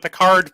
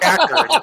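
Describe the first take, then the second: First: The word sounds like 'Picard', stressed at the end. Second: The word sounds like 'Packard', stressed at the start. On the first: This is how an Australian friend said it. The speaker calls it wrong. "like Star Trek Picard?" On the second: This is the usual name of the car maker. The speaker calls it right. "it's Packard"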